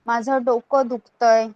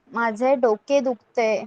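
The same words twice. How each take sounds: First: डोकं ending in a short open vowel, not -e; regional spoken form. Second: डोके ending in a clear -e; standard form. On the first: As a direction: say डोकं and दुखतंय the colloquial Marathi way. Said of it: "कुछ लोग डोकं भी बोलते हैं". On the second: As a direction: say माझे, डोके and दुखते with full final -e vowels. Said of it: "या फिर कुछ लोग डोकं भी बोलते हैं". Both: Shown as a demonstration.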